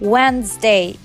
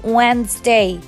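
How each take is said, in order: Both takes have the same delivery.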